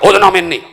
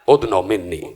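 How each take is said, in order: First: It is said in a plain, flat way. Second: It is said in a warm, tender way. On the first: The speaker calls it wrong. "ये नहीं कहा" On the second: The speaker calls it right. "लहजा देख रहे हैं"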